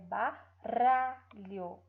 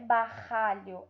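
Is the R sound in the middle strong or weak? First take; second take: weak; strong. First: The middle R is a weak, light tap. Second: The middle R is a strong, heavy sound. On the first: The speaker calls it right. "o som dele é fraco" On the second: The speaker calls it wrong. "não é barralho"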